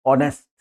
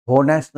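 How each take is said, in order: First: ऑनेस्ट without any H sound; silent H. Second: होनेस्ट with a spoken H; H sounded. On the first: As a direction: start ऑनेस्ट straight on the O vowel. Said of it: "एच को छोड़ के". (ऑनेस्ट, बिना एच के उच्चारण) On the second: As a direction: wrongly sound the H at the start of होनेस्ट. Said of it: "होनेस्ट नहीं, एच को छोड़ दीजिए". (होनेस्ट, एच की आवाज़ के साथ) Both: Shown as a demonstration.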